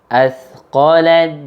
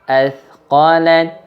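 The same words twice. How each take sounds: The two takes are said the same way.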